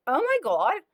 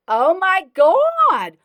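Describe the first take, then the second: First: High, loud shriek of shock; a loud woman's voice, horrified; "oh my God" shrieked high and loud. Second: Very high, very loud and slow; "Oh my God" dragged out at full volume, way up high; drawn-out horrified shriek. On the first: Woman shocked at pale man. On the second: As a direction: stretch every word into a long scandalized wail. Woman repeats, even bigger. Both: Acted.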